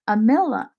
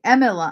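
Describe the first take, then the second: First: The stress falls on the middle syllable. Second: The stress does not fall on the middle syllable. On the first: The speaker calls it wrong. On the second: The speaker calls it right.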